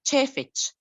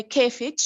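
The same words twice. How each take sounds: First: "كيفك" said as "cheefech", ch at both ends; "كيفك" opening on a ch sound instead of k; initial cha pronunciation. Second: "كيفك" said as "keefech", hard k first, ch last; Bedouin pronunciation. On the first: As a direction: say "كيفك" with ch replacing the first k as well. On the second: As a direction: say "كيفك" with initial k and a final ch sound. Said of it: "the affricate cha. We cannot, uh, pronounce the cha in initial". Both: Shown as a demonstration.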